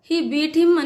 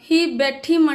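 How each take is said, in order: First: The verb has a long 'ee' vowel. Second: The verb has a short 'e' vowel. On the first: The speaker calls it right. "He బీట్ him అని అన" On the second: The speaker calls it wrong. "బెట్ అనే బదులు"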